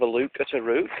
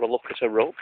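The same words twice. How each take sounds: First: "look" and "rook" both said with a long oo, like "luke" and "rooke"; long oo accent. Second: "look" and "rook" both said with a short oo, as in "book"; short oo accent. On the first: Vlogger showing one accent's "look at a rook", long oo in "look" and "rook". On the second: Vlogger showing the other accent's "look at a rook", short oo in "look" and "rook". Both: Shown as a demonstration. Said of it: "just depends on your accent".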